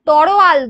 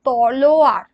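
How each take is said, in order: First: The word ends with an L sound. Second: The word ends with an R sound. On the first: The speaker calls it wrong. "লটাকে র উচ্চারণটা আগে করি" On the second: The speaker calls it right. "শব্দটা হলো তলোয়ার"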